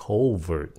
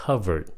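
First: COVERT with a long "oh", like "CO-vert"; modern pronunciation. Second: COVERED with a short "uh" vowel, as in cover; older pronunciation. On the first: Teacher shows today's common reading, COVERT with "oh". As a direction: say COVERT the modern way, first vowel "oh". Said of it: "bây giờ đa số người ta phát âm là". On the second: Teacher shows learners the old reading, COVERED with a short "uh". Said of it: "hồi xưa chữ này phát âm là". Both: Shown as a demonstration.

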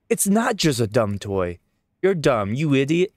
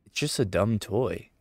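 First: Loud, high, indignant shout with stress on not; angry child. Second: Said in the usual way. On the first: Acted. Child yells at the adult defending the teddy bear, furious. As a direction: kid yelling back in a temper. Kid argues back at adult.

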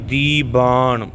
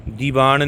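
First: ਦੀਬਾਨ slow and firm, dee-baan; tight, firm pronunciation. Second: ਦੀਵਾਨ run together quickly as one word; quick, joined-up ਦੀਵਾਨ as the mistaken reading; mispronunciation demo. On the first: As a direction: press into the b of ਦੀਬਾਨ. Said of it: "ਕਸ ਕੇ ਬੋਲਣਾ". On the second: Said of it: "ਦੀਵਾਨ ਨਹੀਂ ਕਹਿਣਾ". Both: Shown as a demonstration.

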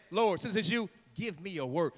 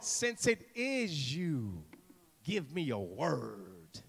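First: Said in the usual way. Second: Slow, sinking low and soft; drawn-out dramatic appeal; hushed plea. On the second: Acted. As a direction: plead softly, stretching the last word. Acts Peter's plea, slow and hushed.

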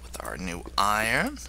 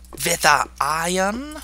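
First: Said in the usual way. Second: Higher-pitched, slow mock-German delivery; playful German accent. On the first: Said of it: "Don't know why I sounded a little". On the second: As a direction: put on a German accent, drawn out and high. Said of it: "I sounded a little German there".

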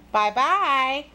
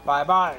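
First: Put-on higher, lilting little-girl goodbye; little girl's farewell. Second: Low, short wolf goodbye; wolf's farewell. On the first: Girl takes leave of wolf. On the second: Acted. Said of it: "said the wolf".

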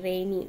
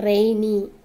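First: Said in the usual way. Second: Rainy said loudly and clearly, announcing the word; emphatic word. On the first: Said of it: "after spelling, teacher repeats". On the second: Shown as a demonstration. Teacher presenting the vocabulary word to pupils, loud and clear. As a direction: call out rainy to the class, louder. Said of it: "teacher naming the word for class".

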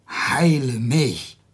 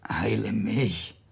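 First: Very slow, firm heile mich at normal volume; slow insistent plea. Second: Slow whispered heile mich; a slow desperate whisper; whispered plea. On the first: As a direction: lean on each word slowly. Hiob insists after "I am Satan. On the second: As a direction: breathe the words out slowly, no voice. Hiob begs even if it's Satan. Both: Acted.

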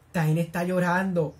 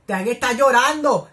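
First: Said in the usual way. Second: Distraught wail. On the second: Real, not acted. Viewer heartbroken as the character cries, slow loud wail.

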